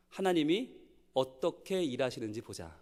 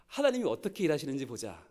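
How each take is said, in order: First: Soft, slow, steady promise; calm quiet reassurance. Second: A touch softer, settled conviction; quiet firm faith. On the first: Church teacher calmly reassuring the worried student. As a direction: say it gently, trusting God. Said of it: "선생님이 이렇게 말해줬어요". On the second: Preacher repeating the teacher's words to the teachers. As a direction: repeat it calmly, with weight. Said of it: "이렇게 말하는 분들이 무서운 분들입니다". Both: Retold or imitated.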